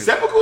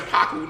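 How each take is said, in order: First: "Seppuku" as SEP-puh-koo, rising like a question; questioned pronunciation. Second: "senpaku" as sem-PAH-koo with an open "ah"; mistaken pronunciation. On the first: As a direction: try out "Seppuku" with stress up front. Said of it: "Is that how you pronounce it?". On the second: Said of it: "I've been saying senpaku". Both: Shown as a demonstration.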